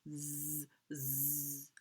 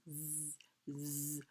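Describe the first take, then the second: Both takes have the same delivery.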